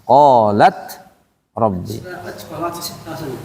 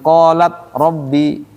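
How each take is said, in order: First: The t is released with an audible breath. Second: The t is stopped with no breath released. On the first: The speaker calls it right. "harus ada tuh" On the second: The speaker calls it wrong. "jangan kosong, itu kosong ada apa-apa. Salah"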